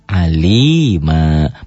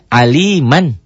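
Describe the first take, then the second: First: The word ends with a lengthened vowel, no n. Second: The word ends with a short vowel plus n. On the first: This is the form used when stopping here. "Jika dihentikan, jadilah mad iwad" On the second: This is the original form when reading on. "Asalnya aliman"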